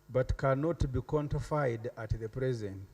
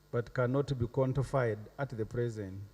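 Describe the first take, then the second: No difference in how they are said.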